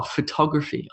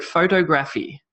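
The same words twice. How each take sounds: First: Photography as pho-TOG-raphy; photography stressed on the second syllable. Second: Photography as PHO-toe-graphy; photography wrongly stressed on the first syllable; stress on the wrong sound. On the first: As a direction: put the beat on TOG in photography. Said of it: "I'm emphasizing the ta". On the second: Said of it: "stress on the wrong sound". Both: Shown as a demonstration.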